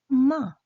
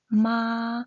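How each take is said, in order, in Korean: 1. 이 소리는 4성으로 발음합니다. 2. 이 소리는 1성으로 발음합니다. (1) "사" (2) "일"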